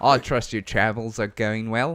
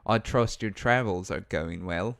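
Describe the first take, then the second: First: Put-on Australian leaning New Zealand; Australian accent. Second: Second, more measured go at Australian; lightly put-on Australian accent. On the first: Villager greeting an adventurer, Australian accent leaning New Zealand. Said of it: "that's more New Zealand than". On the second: Co-streamer retrying the villager's greeting after critique, Australian accent. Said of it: "hit him with your Australian accent".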